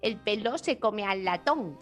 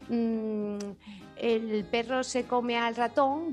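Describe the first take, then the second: First: The r sounds are pronounced as l. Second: The r sounds are pronounced as r. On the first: "dicen algo así como" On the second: "En vez de decir"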